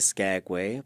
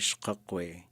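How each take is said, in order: First: The name is said with an anglicized pronunciation. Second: The name is said with a Tlingit-based pronunciation. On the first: This is the common, everyday form. "some people would say" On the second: This is closer to the original Tlingit name. "you could also say"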